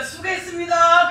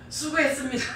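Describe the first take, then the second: First: Slow, lilting polite thanks; imitating new gentle thanks. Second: Imitating polite thanks. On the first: Preacher imitates husband's new polite thanks to her, gentle. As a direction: draw out the thanks sweetly. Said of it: "그러더라고요". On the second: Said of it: "말투가 싹 바뀌었어요".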